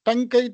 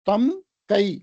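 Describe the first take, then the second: First: The m merges into ng before the k. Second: The m sound is kept before the k.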